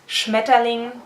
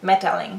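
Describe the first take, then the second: First: The word begins with a 'shm' sound. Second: The word begins with an 'm' sound. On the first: The speaker calls it right. "the word butterfly in German means Schmetterling" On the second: The speaker calls it wrong. "I kept saying Metterling, Metterling, and forgot the beginning"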